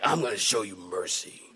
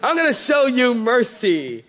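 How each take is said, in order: First: It is said in an angry, grudging tone. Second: It is said in a cheerful, friendly tone. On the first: The mercy is given unwillingly. The speaker calls it wrong. "Not like, ... like mad" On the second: The mercy is given gladly. The speaker calls it right. "And I'm going to be cheerful"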